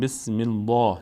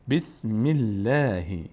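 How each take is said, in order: First: The L in Allah sounds full and heavy. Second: The L in Allah sounds thin and light. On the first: The speaker calls it wrong. "نمیگیم بسم الله" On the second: The speaker calls it right. "لفظ جلاله باریک خوانده میشه"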